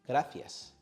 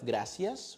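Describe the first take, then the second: First: The c is said with a th sound. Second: The c is said with an s sound. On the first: This is how many speakers in Spain say it. "many speakers pronounce C and Z with a sound similar to the th" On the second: This is how most Latin Americans say it. "instead of gracias"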